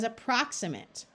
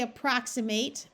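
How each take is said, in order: First: The last syllable is reduced to a schwa. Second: The last syllable is a full 'mate' sound. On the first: "it also comes out as approximate" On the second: "this by itself would be mate"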